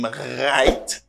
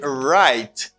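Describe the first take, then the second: First: The R is made in the throat. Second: The R is made with the tongue. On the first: The speaker calls it wrong. "Ou pas di right" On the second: The speaker calls it right. "you say right because you got R"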